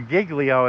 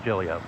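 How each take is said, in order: First: The name is said with a Southern pronunciation. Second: The name is said with a New York Italian pronunciation. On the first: "if you want to do the southern version" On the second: "The New York version, the proper Italian pronunciation"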